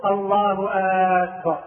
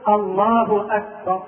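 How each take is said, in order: First: أكبر with a long aa at its start; wrong opening vowel. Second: أكبر with a short crisp first vowel; slow takbir with a short hamza; correct takbir. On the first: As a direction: stretch the hamza of أكبر into aakbar. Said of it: "الخطأ أن يقول". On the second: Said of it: "والصواب أن يقول". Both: Shown as a demonstration.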